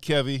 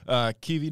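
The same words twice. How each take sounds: First: The name starts with a short 'Kev' sound. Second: The name starts like the word key. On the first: The speaker calls it wrong. "not Kevi" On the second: The speaker calls it right. "It's like a key and a V"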